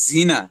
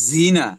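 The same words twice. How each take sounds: No difference in how they are said.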